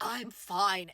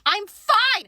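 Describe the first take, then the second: First: It is said in a normal, calm voice. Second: It is said in a high, strained voice.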